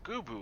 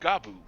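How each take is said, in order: First: The first syllable has an 'oo' vowel. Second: The first syllable has an 'ah' vowel. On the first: The speaker calls it right. "So that's how you pronounce that" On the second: The speaker calls it wrong. "I've always been going uh"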